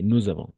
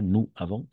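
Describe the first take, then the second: First: The two words are joined by a linking z sound. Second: The two words are said without a linking z sound. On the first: The speaker calls it right. "On va faire la liaison" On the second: The speaker calls it wrong. "Pas nous avons"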